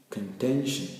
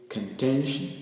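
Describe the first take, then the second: The two takes are said the same way.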